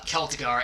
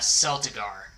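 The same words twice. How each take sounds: First: Celtigar said KEL-tih-gar; Celtigar with hard K. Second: Celtigar said SEL-tih-gar; Celtigar with soft C. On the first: Streamer citing the house name, Celtigar with hard K. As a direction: start Celtigar with a K sound, as in kelp. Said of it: "the way I pronounced House". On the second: Streamer admitting his mispronunciation, Celtigar with soft C. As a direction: start Celtigar with an S sound, as in sell. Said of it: "called me out for the way I pronounced". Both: Shown as a demonstration.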